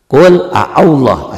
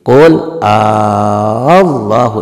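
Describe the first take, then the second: First: Two short vowels are split by a glottal catch. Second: One vowel is merged and drawn out long. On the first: This is the underlying form of the word. "asalnya ini" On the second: This is how the word is actually recited. "dibacanya menjadi"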